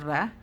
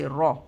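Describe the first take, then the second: First: The sound is light, with flat lips. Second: The sound is heavy, with rounded lips. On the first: The speaker calls it wrong. "not ra" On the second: The speaker calls it right. "with a round mouth with a heavy"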